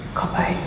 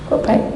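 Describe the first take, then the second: First: Soft whispered wonder; awed whisper. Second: Said in the usual way. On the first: Retold or imitated. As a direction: whisper it in awe. Awed repeat to God. (berbisik kagum)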